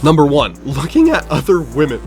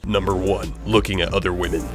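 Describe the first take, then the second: First: It is said in a normal speaking voice. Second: It is said in a put-on deep manly voice.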